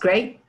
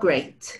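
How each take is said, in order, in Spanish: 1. La vocal se corta y queda breve. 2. La vocal se mantiene larga y estable. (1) "No, no se corta" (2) "Pues no, porque no se alarga"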